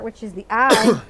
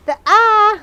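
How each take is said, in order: First: Said in the usual way. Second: "The eye" much higher and louder, hammed-up; big theatrical "The eye", pitched high; dramatic emphasis. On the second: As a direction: announce "The eye" like a grand reveal. Repeats favorite part dramatically.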